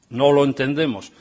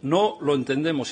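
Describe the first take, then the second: First: It is said more loudly. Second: It is said at normal volume.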